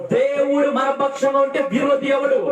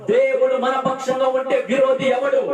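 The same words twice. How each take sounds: No difference in how they are said.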